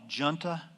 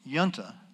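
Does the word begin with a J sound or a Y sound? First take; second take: J sound; Y sound. First: The word begins with a J sound. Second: The word begins with a Y sound. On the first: This is how people living there say it. "the locals call it junta" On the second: This is the scholarly form reflecting its Italian origin. "academically, it's yunta"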